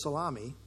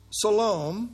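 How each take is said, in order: First: Salome said as salami, like the sausage; mispronounced as salami. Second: Salome said properly as sa-LO-me; correct Salome. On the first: Retold or imitated. Preacher recalling his old slip to the congregation, softer. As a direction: quietly retell the salami slip. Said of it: "mispronounced as salami". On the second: Shown as a demonstration. Preacher saying Salome properly to the congregation. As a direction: give Salome its proper name. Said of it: "who I one time early in my ministry mis-, mispronounced".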